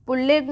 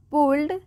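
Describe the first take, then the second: First: Pulled as two syllables, "pul-led"; wrong pronunciation. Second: Pulled as one syllable, "puld"; correct pronunciation. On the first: Teacher shows what not to read, mispronounced as spelt. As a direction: give pulled a full "-ed" ending. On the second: Teacher gives learners the right reading, correctly pronounced. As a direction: close pulled straight from l into d. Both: Shown as a demonstration. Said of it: "pulled नहीं".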